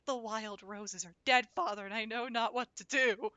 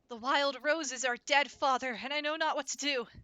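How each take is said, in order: First: It is said in his ordinary voice. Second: It is said in an acted character voice.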